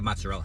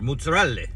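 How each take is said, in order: First: It is said with an American accent. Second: It is said with an Italian accent. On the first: "That's the American way to say it" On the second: "I think the Italian way to say it is"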